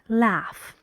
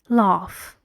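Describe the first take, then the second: First: It is said in an American accent. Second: It is said in a British accent. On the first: "Americans say laugh" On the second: "British English?"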